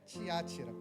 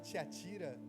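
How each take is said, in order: First: The stress falls on the second syllable. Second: The stress falls on the third syllable. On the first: The speaker calls it right. "mas eu lembro que é Tiátira" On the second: The speaker calls it wrong. "mesma forma que eu fui enganado"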